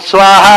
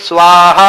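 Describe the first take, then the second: Both takes have the same delivery.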